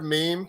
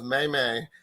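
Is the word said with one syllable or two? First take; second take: one; two. First: It is said as one syllable rhyming with team. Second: It is said as two syllables, may may. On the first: The speaker calls it right. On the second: The speaker calls it wrong.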